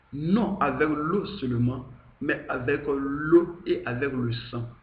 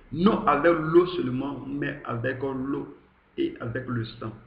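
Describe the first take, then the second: No difference in how they are said.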